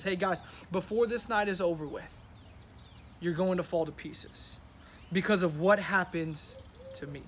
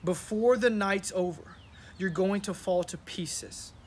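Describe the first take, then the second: First: "Hey, guys" and "fall to pieces" said like a casual chat; casual paraphrase. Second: Slow, weighty reading of "you're going to fall to pieces"; slow scripture reading. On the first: Pastor recasting Jesus's words for the church, casual. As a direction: retell it like an easy talk among friends. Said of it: "Listen to what Jesus is telling the disciples". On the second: Pastor reading the verse slowly to his congregation, solemn. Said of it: "Then Jesus told them". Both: Shown as a demonstration.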